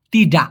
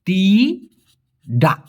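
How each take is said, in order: First: Said in the usual way. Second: "তিডা" stretched very slowly with a falling tune; drawn-out teaching word. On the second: Shown as a demonstration. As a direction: hold each sound of "তিডা" for the learner. ("তিডা" খুব ধীরে টেনে বলা) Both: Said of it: "direct নাকে বলা হয়".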